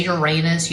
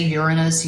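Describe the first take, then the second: First: "Uranus" said your-AY-nus, stress on the middle syllable; other pronunciation. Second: "Uranus" said YUR-in-us, stress on the first syllable; preferred pronunciation. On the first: Tarot reader showing how others say the planet, "Uranus" as your-AY-nus. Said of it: "You might say Uranus". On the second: Tarot reader giving her own way to say the planet, "Uranus" as YUR-in-us. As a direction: say "Uranus" as YUR-uh-nus, not your-AY-nus. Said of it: "I say Uranus". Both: Shown as a demonstration.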